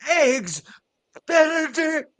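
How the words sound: It sounds angry.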